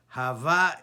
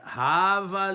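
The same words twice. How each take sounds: First: The stress is on the last syllable. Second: The stress is on the first syllable. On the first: "pronounced Milera on the second syllable at the end of the word" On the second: "The emphasis is on the first syllable"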